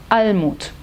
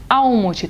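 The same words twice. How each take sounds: First: Almut with a clear L, tongue on palate; clear German L. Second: Almut with the L said as u, Awmut. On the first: Shown as a demonstration. Teacher modelling the right Almut. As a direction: say Almut with a firm L. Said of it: "na Alemanha é". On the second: Retold or imitated. Teacher imitating friends' wrong Almut. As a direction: soften the L in Almut into u. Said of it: "trazendo esse L como U".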